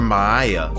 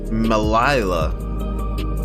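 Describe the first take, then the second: First: The double L is said as a Y sound. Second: The double L is said as an L sound.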